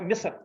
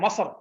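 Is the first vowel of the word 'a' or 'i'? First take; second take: i; a. First: The first vowel is an 'i' sound. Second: The first vowel is an 'a' sound. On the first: This is the basic form of the word. The speaker calls it right. "Basic जो वर्ड है वो है मिस्र, मीम को जेर है" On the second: The speaker calls it wrong. "वो कहते हैं मसर ... जेर की जगह जबर आ गया"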